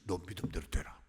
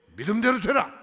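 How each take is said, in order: First: Hushed, breathy whisper of 너 믿음대로 되라; whispered blessing. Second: Much louder and higher, 되라 ringing out; proclaimed blessing. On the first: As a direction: breathe 너 믿음대로 되라 softly, as a secret. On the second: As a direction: declare 믿음대로 되라 at full voice. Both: Acted.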